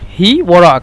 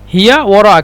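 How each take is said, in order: First: The first word drops its final vowel. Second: The first word keeps its final vowel. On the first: This is the Saudi way of saying it. "সৌদির বলে" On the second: This is the Egyptian way of saying it. "মিশরে বলি"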